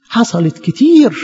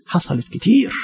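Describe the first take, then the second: First: حصلت كتير drawn out slowly with a firm falling كتير; slow emphatic repeat. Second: حصلت كتير said softly with a small rise on كتير; preacher concedes softly, حصلت كتير with a rising كتير; soft aside. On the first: Preacher insists to congregation, slow emphatic falling حصلت كتير. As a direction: press the point home, slow heavy حصلت كتير. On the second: Preacher to congregation about church history, soft rising حصلت كتير. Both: Shown as a demonstration.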